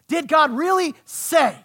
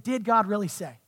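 First: "Did God really say" slowed, high and loud; loud, drawn-out challenge on "really say"; emphatic repeated question. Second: Said in the usual way. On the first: Acted. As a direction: hammer out "Did God really say", landing hard on "say".

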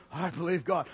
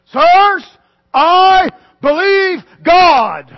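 First: Low, soft, offhand mumble; flat cliche. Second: Slow, loud, high declaration of faith; ringing proclamation. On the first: Preacher mocking faith said as cliche, soft and flat. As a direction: toss it off like an empty phrase. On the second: Preacher to congregation, proclaiming faith slowly and loudly. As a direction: proclaim it slowly to the whole church. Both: Shown as a demonstration. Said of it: "It just sounds kinda cliche".

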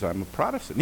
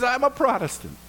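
First: Said in the usual way. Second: High delighted repeat; excited echo. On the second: Retold or imitated. Rescuer squealing back in delight at a fellow Protestant.

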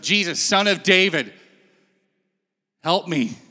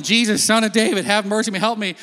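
First: Said in the usual way. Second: A touch higher, pleading call; mild retold yell. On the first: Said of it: "he's like". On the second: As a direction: cry out to Jesus, pleading. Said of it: "So he keeps yelling".

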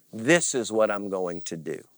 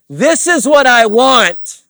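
First: Said in the usual way. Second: High, drawn-out shout; loud, high-pitched demand of the flesh; insistent demand. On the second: Acted. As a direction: shout it as a slow, stubborn demand.

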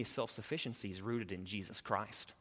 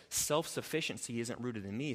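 First: "rooted" pressed down, quiet and settled; stress on rooted. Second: "isn't" leaned on, "me" lifted at the end, softly; stress on isn't. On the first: Pastor answering his own contrast, quiet stress on "rooted". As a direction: land firmly on "rooted in Jesus Christ". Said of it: "contrast with previous line". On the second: Pastor contrasting where self-sufficiency is rooted, quiet stress on "isn't". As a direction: set "isn't rooted in me" against the next line. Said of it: "contrast with next line". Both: Shown as a demonstration.

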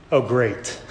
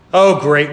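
First: Quiet, sour "Oh, great."; a low, soft eye-roll on "Oh, great."; muttered sarcasm. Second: "Oh, great." said out loud, exasperated; an exasperated, louder "Oh, great."; louder sarcasm. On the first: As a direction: mutter "Oh, great." under the breath. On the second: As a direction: throw "Oh, great." out to the room. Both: Pretend. Disciples annoyed at Mary.

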